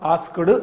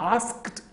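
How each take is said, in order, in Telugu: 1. ఈ పదం d శబ్దంతో ముగుస్తుంది. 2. ఈ పదం t శబ్దంతో ముగుస్తుంది. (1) "అనొద్దు" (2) "టకారంతో ఆస్క్ అనే పదాన్ని ఆస్క్డ్ అనాలి"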